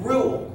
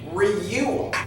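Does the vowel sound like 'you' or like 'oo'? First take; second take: oo; you. First: The vowel sounds like plain 'oo', no glide. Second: The vowel sounds like 'you', with a y-glide. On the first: The speaker calls it right. "You're saying rule. Ooh, ooh" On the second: The speaker calls it wrong. "you're not saying reule"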